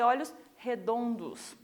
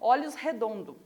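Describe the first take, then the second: First: The final S of the last word is pronounced. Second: The final S of the last word is dropped. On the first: "tem que ser olhos redondos" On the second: "A gente não fala esse S no final, a gente acaba falando assim"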